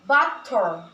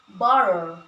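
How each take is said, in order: First: The middle consonant is a sharp T. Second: The middle consonant sounds like a soft D. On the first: "T sound pronounced sharply" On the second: "often sound like a soft D"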